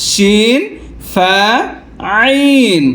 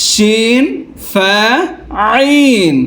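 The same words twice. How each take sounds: Both takes have the same delivery.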